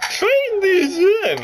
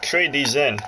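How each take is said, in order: First: Pitched way up and slow; high put-on lady guide voice. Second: Said in the usual way. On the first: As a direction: redo it as the cheery game guide. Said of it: "I hate talking in that voice". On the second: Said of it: "talking in that voice".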